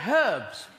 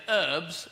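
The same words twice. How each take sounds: First: "herbs" with a sounded H; British pronunciation. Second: "herbs" as erbs, silent H; American pronunciation. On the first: Comic correcting Americans, "herbs" with an emphatic H. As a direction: hit the H in "herbs" hard. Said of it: "and we say herbs". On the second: Comic showing Americans their word, "herbs" as erbs. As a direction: drop the H in "herbs". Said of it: "and you say herbs". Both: Shown as a demonstration.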